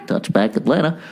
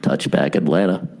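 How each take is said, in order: First: Lightly voiced PA call; tossed-off PA announcement; lightly imitated announcer; a hint of the stadium announcer. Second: Much lower, booming announcer voice; deep mock PA announcer; stadium announcer. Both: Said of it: "the announcer just goes".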